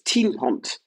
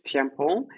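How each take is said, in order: First: The surname is pronounced the Flemish way. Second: The surname is pronounced the French way. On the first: "In Flanders" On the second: "In French"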